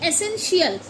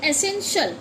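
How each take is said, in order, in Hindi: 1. आखिरी हिस्सा खींचकर shiyal बोला जाता है। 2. आखिरी हिस्सा एक ही उच्चारण में बोला जाता है: shal। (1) "ना कि एसेंशियल" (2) "इसे हम बोलते हैं एसेंशियल"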